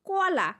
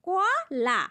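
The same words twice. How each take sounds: First: Said in the usual way. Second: কলা said slowly as two open syllables, কো-লা; syllable demo. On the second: Shown as a demonstration. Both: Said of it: "আমি তোমাদের একটা simple উদাহরণ দেই".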